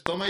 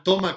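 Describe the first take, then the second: First: Said in the usual way. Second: A louder, perked-up "toma" to grab the dog; activating call. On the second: Shown as a demonstration. Trainer excites the dog with a loud "toma". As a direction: snap the word "toma" out to excite. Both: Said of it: "abre los ojos y ya atiende a todo".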